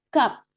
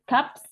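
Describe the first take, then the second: First: The word ends in a plain p. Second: The word ends in p followed by s. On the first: The speaker calls it right. "tapi cup" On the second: The speaker calls it wrong. "bukan cups"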